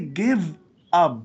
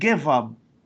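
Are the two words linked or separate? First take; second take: separate; linked. First: The two words are said separately. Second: The two words run together as one. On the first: The speaker calls it wrong. "We don't say give up" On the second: The speaker calls it right. "we link them"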